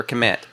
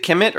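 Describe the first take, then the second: First: "Kemet" as kuh-MET; second-syllable stress. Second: "Kemet" as KIM-it; first-syllable stress. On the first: Host offering the other reading, "Kemet" as kuh-MET. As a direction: say "Kemet" with a weak first vowel, stress on MET. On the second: Host asking how the name is said, "Kemet" as KIM-it. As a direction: say "Kemet" with a short i, stressed up front. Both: Shown as a demonstration. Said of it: "Is it Kemet or Kemet".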